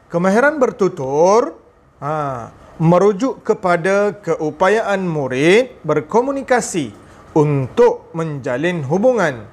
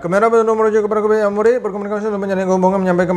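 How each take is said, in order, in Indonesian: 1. Frasa-frasanya dipisahkan oleh jeda yang jelas. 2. Frasa-frasanya disambung tanpa jeda sama sekali. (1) "Tapi kalau ada jeda" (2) "Contohnya tak ada jeda"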